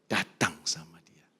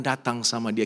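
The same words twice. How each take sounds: First: Slow, softer whispered repeat; hushed and slow. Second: Said in the usual way. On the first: Shown as a demonstration. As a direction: let it fall to a whisper. Repeated line, whispered second time.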